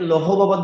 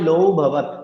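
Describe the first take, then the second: First: The first word ends with an h sound. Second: The first word ends without an h sound. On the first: The speaker calls it wrong. "অনেকে লৌহ ভবত বলে ফেলে, বিষয়টা আমরা করবো না" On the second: The speaker calls it right. "এখানে এটা আমরা করতে পারি"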